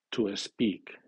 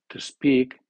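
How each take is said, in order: First: An extra vowel sound comes before the s. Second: The word starts directly with the s sound. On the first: The speaker calls it wrong. "el alumno comenzará por vocal la siguiente palabra que comience por S" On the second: The speaker calls it right. "Eso debe de ser"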